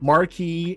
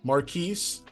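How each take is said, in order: First: The name ends without an S sound. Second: The name ends with an S sound. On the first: The speaker calls it wrong. "I'm probably saying that wrong too" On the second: The speaker calls it right. "You do pronounce the S when there's an E at the end"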